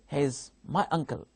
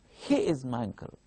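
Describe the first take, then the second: First: The stress falls on the word uncle. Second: The stress falls on the word he. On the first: It is a plain statement of fact. "Here, stress is on uncle" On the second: It is this person, not another person. "I am giving stress on he"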